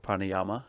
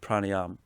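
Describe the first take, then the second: First: The word ends with a final vowel sound. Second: The word ends without a final vowel sound. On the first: The speaker calls it wrong. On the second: The speaker calls it right.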